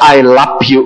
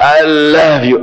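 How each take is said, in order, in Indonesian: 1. Diucapkan dengan logat daerah Tasik. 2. Diucapkan dengan cara biasa dan lembut.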